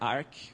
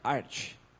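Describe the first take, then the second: First: The word ends with a 'k' sound. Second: The word ends with a 'ch' sound. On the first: The speaker calls it wrong. "Não é Arc" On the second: The speaker calls it right. "a pronúncia oficial é Arch, como Archer"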